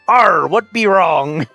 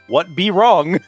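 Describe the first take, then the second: First: It is said in a put-on accent. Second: It is said plainly, with no accent.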